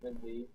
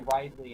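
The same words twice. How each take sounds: First: The first syllable has a short vowel. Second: The first syllable has a long vowel. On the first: "instead of Ridley" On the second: "I used to say Ridley"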